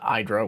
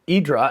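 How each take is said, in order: First: The name is said with an American pronunciation. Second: The name is said with a European pronunciation. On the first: "which would be the U S way of saying it" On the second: "I'm pronouncing this as Europeans would say"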